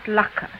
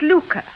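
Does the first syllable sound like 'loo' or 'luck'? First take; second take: luck; loo. First: The first syllable sounds like 'luck'. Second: The first syllable sounds like 'loo'. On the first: The speaker calls it wrong. "not lucre" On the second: The speaker calls it right. "But it's lucre"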